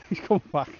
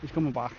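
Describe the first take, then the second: First: Laughing through the words; amused chuckle as the dog returns. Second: Said in the usual way. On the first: Real, not acted. Angler laughing as the puppy runs back to him. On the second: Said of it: "repeat with laugh".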